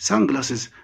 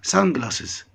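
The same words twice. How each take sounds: The two takes are said the same way.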